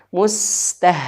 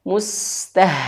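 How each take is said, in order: Both takes have the same delivery.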